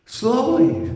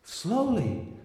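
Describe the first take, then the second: First: Higher slowly. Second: Soft, breathy-free hush of a lover; hushed slowly. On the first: Lover repeating her plea, pitched higher. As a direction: press it again, pitched up. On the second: Lover urging him to slow down, hushed. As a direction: say it softly, drawing it out. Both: Retold or imitated. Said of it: "she says".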